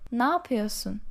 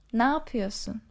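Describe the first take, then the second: Both takes have the same delivery.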